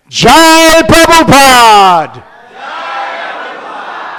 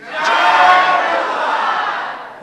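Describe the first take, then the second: First: High, loud and slow jubilant shout; enthusiastic cheer. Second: Higher, drawn-out slow jubilant shout; bigger cheer. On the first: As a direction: cheer it out with the whole crowd. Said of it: "they said it with such enthusiasm". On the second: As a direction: stretch the cheer out, call it even higher. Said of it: "Let's try it again". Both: Acted.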